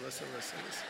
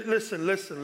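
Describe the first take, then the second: First: Listen, listen fading to a murmur; trailing soft. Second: Said in the usual way. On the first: Shown as a demonstration. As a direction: let "listen, listen" drop away much softer.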